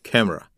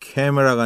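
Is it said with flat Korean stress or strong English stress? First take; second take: English stress; flat Korean. First: It is said with a strong English stress. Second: It is said evenly, with flat Korean stress.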